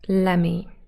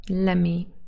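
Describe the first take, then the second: First: The words are run together into one word. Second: The words are run together into one word.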